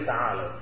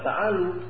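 First: The word ends in an 'au' diphthong. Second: The word ends in a plain long vowel. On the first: The speaker calls it right. "tapi ta'alau" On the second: The speaker calls it wrong. "bukan ta'alu"

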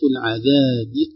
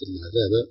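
First: The final b carries an i vowel. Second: The final b has no i vowel. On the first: The speaker calls it right. "للإضافة كسرة الباء" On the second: The speaker calls it wrong. "وليس العذاب"

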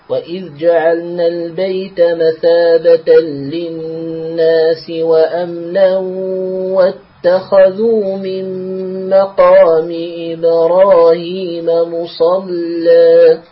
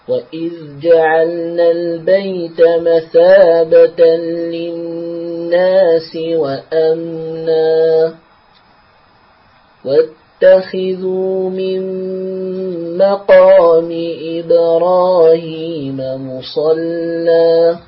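First: The words run on without a pause after وأمنا. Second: There is a full stop after وأمنا. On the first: The command continues the preceding statement. "فالوصل هنا أولى" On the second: A new command begins after a completed statement. "فيكون الوقف على وأمنا وقفا تاما"

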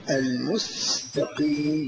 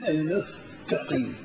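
First: The word has a clear s sound. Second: The s sound is replaced by th. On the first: The speaker calls it right. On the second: The speaker calls it wrong.

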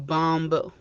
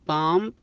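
First: A b sound is heard at the end. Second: The word ends without a b sound. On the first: The speaker calls it wrong. "ولا تنطق الكلمة الأولى اللي هي بامب" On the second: The speaker calls it right. "تنطق بحرف سايلنت البي"

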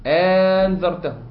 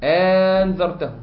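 First: The second glottal stop becomes a long vowel. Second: The second glottal stop becomes a long vowel.

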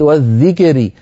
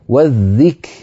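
First: The k is released with an echoing bounce. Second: The k is released with a breathy puff. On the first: The speaker calls it wrong. "أتيت بها مقلقلة" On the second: The speaker calls it right. "شدة فهمس في الكاف"

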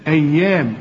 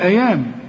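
First: The y sound is held long and doubled. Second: The y sound is short and single. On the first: The speaker calls it right. "وشوف الياء عليها الإيه الشدة" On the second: The speaker calls it wrong. "لو ما فيش الشدة"

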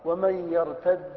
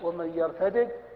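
First: The two final d sounds merge into one doubled d. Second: The two final d sounds are pronounced separately. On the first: "قرأوا بالإدغام" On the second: "قرأوا بالفك"

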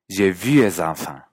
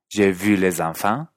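First: The L of 'les' is dropped. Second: The L of 'les' is pronounced clearly.

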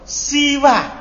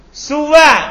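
First: The first vowel is an i sound. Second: The first vowel is a u sound. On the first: "dan huruf sinnya di kasro" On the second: "tapi di domasinnya"

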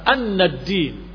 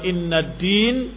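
First: The first vowel is an open 'a' sound. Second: The first vowel is a front 'i' sound. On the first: It states the content of what is witnessed. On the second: It introduces a new independent statement.

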